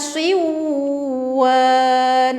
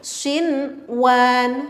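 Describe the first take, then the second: First: The n sound merges into the w. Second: The n sound is pronounced clearly. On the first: The speaker calls it wrong. "enggak begini, enggak siwan" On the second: The speaker calls it right. "Nunnya tuh jelas"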